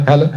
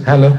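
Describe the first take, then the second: The two takes are said the same way.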